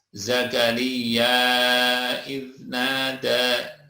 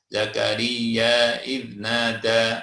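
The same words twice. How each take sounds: First: The final vowel of Zakaria is held moderately long. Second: The final vowel of Zakaria is held briefly. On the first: "atau empat harokat dua alif" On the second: "boleh dibaca dua"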